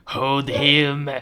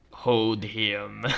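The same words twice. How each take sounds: First: Raised, drawn-out command; forceful villain order. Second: Low, drawn-out villain voice; sinister order. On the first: Doctor repeating the order to restrain, insistent villain. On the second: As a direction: give a slow, ominous command. Villain doctor ordering the patient held. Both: Acted.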